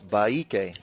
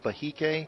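First: No H sound is heard in the middle. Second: An H sound is heard in the middle. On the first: The speaker calls it right. "it's Baike" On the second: The speaker calls it wrong. "It's not Bahike"

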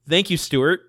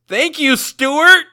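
First: It is said at normal, quiet volume. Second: It is yelled loudly.

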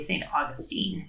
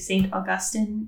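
First: The name is said the Americanized way. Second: The name is said the non-Americanized way. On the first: It names the city. "but the city is definitely St. Augustine" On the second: It names the saint. "When we're talking about the saint, I think St. Augustine is how I generally hear it pronounced"

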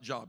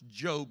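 First: The vowel is a short 'o' sound. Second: The vowel is a long 'oh' sound. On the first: The speaker calls it wrong. "not Job" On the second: The speaker calls it right. "It is pronounced Job"

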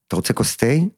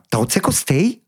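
First: Asked at normal pitch and pace, calmly. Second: Asked higher, a bit faster, with excitement.

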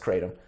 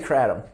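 First: It is said to echo 'hate them'. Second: It is said without echoing 'hate them'. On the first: This pronunciation makes a pun. "for the sake of the pun, it's Kratom" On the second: This is the speaker's usual pronunciation. "I say Kratom"

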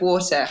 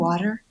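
First: Water is said with a British accent. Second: Water is said with an American accent. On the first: "my accent" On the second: "can I have some water instead of water?"

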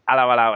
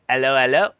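First: It is said in a plain English accent. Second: It is said in a French accent. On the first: The speaker calls it wrong. "it's not hello, hello" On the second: The speaker calls it right. "It's like hello, hello. You know, it's like French"

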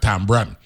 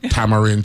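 First: The word is shortened to two syllables. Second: The word is said in full, three syllables. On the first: "But we'd have said tambran" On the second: "I'm going to pronounce it correctly"

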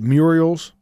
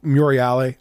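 First: The name is said with an Americanized pronunciation. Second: The name is said with an Italian pronunciation. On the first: This is how locals say the name now. The speaker calls it wrong. "folks around here pronounce it Muriel's. I can't imagine that's how you pronounce it" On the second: This is how the name was said originally. The speaker calls it right. "I have to assume it's pronounced Muriale"

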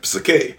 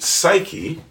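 First: The word is said with Greek pronunciation. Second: The word is said with English pronunciation. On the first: "it's actually in Greek pronounced psyche" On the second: "you would pronounce it psyche"

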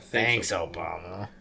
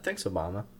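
First: It is said in a dry, sarcastic tone. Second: It is said in a genuinely grateful, sincere tone. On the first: The speaker is mockingly blaming him. The speaker calls it right. "that's not how you say it. You say it" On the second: The speaker is truly thankful. The speaker calls it wrong. "I'm happy about that"

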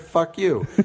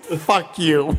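First: It is said flatly, matter-of-fact. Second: It is said with strong emphasis.

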